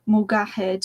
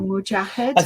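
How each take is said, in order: First: The middle consonant is a hard g sound. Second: The middle consonant is a j sound. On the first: This is the Egyptian dialect form. "They pronounce the letters as g, g as g instead of j" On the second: This is the usual standard form. "it would usually be"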